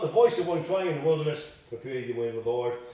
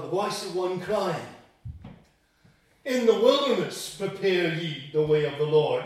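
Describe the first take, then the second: First: The break comes after "wilderness". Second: The break comes after "crying".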